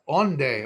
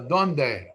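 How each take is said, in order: First: The word starts with an O sound. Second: The word starts with a D sound. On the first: This is how Ladino speakers say it. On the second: This is the standard Spanish form.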